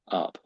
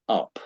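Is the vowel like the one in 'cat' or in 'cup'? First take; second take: cup; cup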